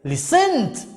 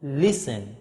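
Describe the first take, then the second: First: Exaggerated late stress on listened; wrong syllable stressed. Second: Listen low and soft, stressed up front; quiet falling listen, early stress; first syllable stressed. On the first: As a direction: push the stress onto the end of listened. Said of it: "You don't say". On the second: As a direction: let the end of listen fall away. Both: Shown as a demonstration.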